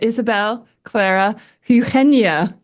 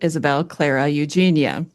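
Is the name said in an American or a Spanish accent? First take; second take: Spanish; American. First: The name is said in a Spanish accent. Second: The name is said in an American accent. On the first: "Emma is trying to get me to say it" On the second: "in my American accent, I would pronounce it"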